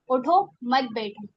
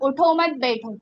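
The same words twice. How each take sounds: First: It is said with a pause after the first word. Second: It is said without a pause after the first word. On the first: The listener is told to get up and not sit. "अब यहाँ पे मैं वक़्फ़ करूँगी, उठो, gap करा मैंने" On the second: The listener is told not to get up but to stay seated. "बैठने की ताकीद हो रही है ना"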